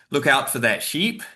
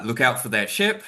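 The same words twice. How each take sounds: First: "sheep" with a long, tense ee; long vowel in sheep. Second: "ship" with a short, lax i; short vowel in ship. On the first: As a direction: draw out the ee in "sheep". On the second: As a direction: keep the i in "ship" short, as in "sit". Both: Shown as a demonstration. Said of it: "identify which utterant was said".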